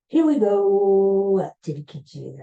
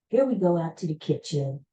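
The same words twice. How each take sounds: First: It imitates a quarterback's play-call delivery. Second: It is said in an ordinary speaking voice. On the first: "I will say" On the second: "instead of saying"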